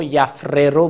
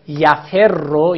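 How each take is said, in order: First: یفره رو with two separate r sounds; یفره رو, f closed, kasra on first r; original unmerged form. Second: یفر with a doubled r; یفر, kasra on f, r doubled; merged form. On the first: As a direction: say یفره رو as yaf-RE-ro. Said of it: "بوده عین الفعل مکسوره". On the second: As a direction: say یفر slowly as ya-FER-ro, holding the r. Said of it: "یفره رو بوده عین الفعل مکسوره". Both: Shown as a demonstration.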